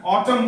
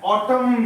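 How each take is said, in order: First: "ऑटम" ending cleanly on M; silent N. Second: "ऑटम" with an N sounded after the M; wrong pronunciation. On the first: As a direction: model "ऑटम" with no final N. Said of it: "ऑटम बोलेंगे". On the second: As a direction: show the mistake, "ऑटम" ending in M-N. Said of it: "नहीं बोलेंगे". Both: Shown as a demonstration.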